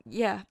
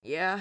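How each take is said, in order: First: Lightly coughed reply. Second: Lightly rasped short answer; a touch of rasp on the word; rasped reply. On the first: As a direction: answer with a slight cough in it. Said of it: "he coughed lightly into his hand". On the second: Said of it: "he rasped". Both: A narrator's reading.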